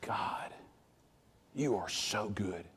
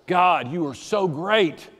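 First: Much softer, slow hushed thanks; whispered praise to God; whispered prayer. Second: Slow, fuller, sincere prayer; earnest slow worship; fervent praise. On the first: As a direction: breathe it out as a private prayer. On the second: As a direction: lift the praise aloud. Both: Retold or imitated. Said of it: "I remember".

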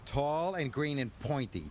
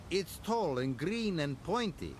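First: Lightly voiced Thomas, cutting in proudly; a hint of know-it-all; chuffed and cocky. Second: Higher, sing-song teasing of a big engine; cheeky little engine mocking; teasing Duncan. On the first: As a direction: interrupt with smug confidence. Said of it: "chuffed Thomas". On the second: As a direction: poke fun at Thomas. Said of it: "laughed Duncan".

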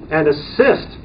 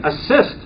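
First: Said in the usual way. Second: "assist" lifted higher with a rising tune; stress on assist. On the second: Shown as a demonstration. Trainer flagging a key legal word for board members, stressed. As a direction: lift "assist" up so they underline it. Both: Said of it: "ooh, underline that again".

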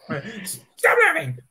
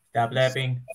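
First: Angry yell. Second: Said in the usual way. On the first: Acted. Villain slow yell.

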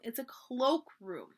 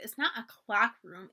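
First: "cloak" with a long o; corrected CLOAK. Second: "clock" with a short open vowel; mispronounced CLOCK. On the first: Samantha correcting Bridget, slow long o in "cloak". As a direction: slowly stretch "cloak" to rhyme with oak. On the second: Samantha repeating Bridget's mistake, "clock" with short o. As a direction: draw out "clock", the wrong word being corrected. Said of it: "We put our lunches in the clock room". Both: A narrator's reading.

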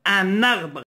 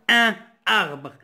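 First: "Un arbre" run together as un-narbre; with liaison. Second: "un arbre" with a break, no n linking the words; without liaison. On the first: Teacher showing learners the correct link, with liaison. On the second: Teacher showing what we won't say, without liaison. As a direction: keep "un" nasal and apart from "arbre". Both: Shown as a demonstration. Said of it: "Ça, c'est la liaison".

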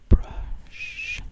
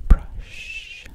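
The two takes are said the same way.

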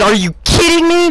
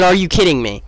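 First: High-pitched yell of disbelief; retold yell. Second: Said in the usual way. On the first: Fan correcting his retold reaction, high yell. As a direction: cry out incredulously, pitched way up. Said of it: "I, I yelled that". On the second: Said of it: "That's what I said".

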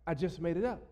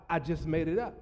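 The two takes are said the same way.

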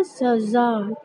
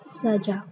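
First: सजा with a buzzing z, as "zaza"-style za; z sound in सजा. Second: सजा with a hard j, as "sajaa"; the mistaken "sajaa" for सजा, drawn out; j sound in सजा. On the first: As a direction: say सजा as "sazaa", not "sajaa". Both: Shown as a demonstration. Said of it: "ना कि सजा".

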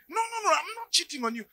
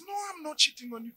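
First: Higher, pleading no, no, no; insistent denial. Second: Fast, higher denying husband; quick denial. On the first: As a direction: deny it again, pitched up. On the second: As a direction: rush the denial, a bit higher. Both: Acted. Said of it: "And he says".

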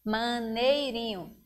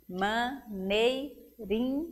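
First: Said in the usual way. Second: "maneirinho" slowly split as ma-nei-ri-nho; four spaced beats on "maneirinho"; syllable by syllable. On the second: Shown as a demonstration. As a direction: pause after every syllable of "maneirinho". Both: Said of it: "quer saber o número de sílabas".

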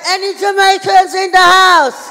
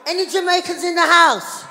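First: Very loud, high, drawn-out holler; bigger crowd shout. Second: High, loud shout to the crowd; calling out. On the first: Comedian repeating the question to audience, full drawn-out shout. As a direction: belt it slowly to rouse the room. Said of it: "I said". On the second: Comedian asking the audience who is Jamaican, calling out. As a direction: hail the whole room. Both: Real, not acted.

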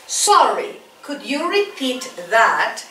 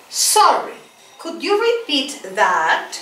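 First: Slow, even English with a level "Sorry"; slow model phrase. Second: Slow model phrase. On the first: Teacher repeats it for the class, slow and level. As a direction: say "Sorry, could you repeat that?" slowly and evenly. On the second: Teacher models for students to repeat, slow and clear. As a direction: model "Sorry, could you repeat that?" slowly for students to echo. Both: Shown as a demonstration. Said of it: "Repeat after me".

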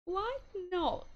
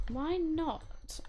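First: Higher posh lilt on why not. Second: Said in the usual way. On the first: Acted. Playing the game, asks her sim in a posh voice. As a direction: put on a plummy upper-class tone. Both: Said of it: "I feel like I sounded really posh then".

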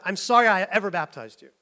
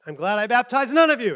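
First: Louder exasperated retort; mild mock exasperation; flipped modern pastor version. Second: Loud, higher angry outburst; mock-furious Paul. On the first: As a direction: flip it into a pastor's exasperated jab. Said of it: "flip it". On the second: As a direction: snap it at the church like a fed-up apostle. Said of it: "Paul gets really mad".

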